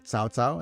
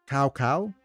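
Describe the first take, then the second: First: The name is said in a Mandarin way. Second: The name is said in an English-style way. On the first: The speaker calls it right. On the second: The speaker calls it wrong.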